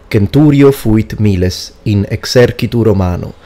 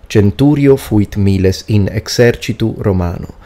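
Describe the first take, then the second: No difference in how they are said.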